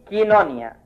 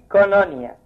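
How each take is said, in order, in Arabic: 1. المقطع الأول فيه حركة i فقط. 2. المقطع الأول فيه حركة o فقط. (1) "يتنطق الحرف الثاني اللي هو اي يبقى كينونيا" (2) "يتنطق حرف واحد اللي هو الاو يبقى كونونيا"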